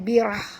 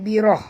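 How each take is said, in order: First: The final h is strongly breathed out. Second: The final h is weak and barely heard. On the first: The speaker calls it right. "tapi baca birah, birah ya, bunyikan ha pedas tu" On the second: The speaker calls it wrong. "jangan baca birah"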